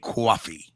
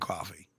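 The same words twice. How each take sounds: First: It is said in a Long Island accent. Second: It is said in a plain, unmarked accent. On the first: "People of Long Island say coffee" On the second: "I say coffee"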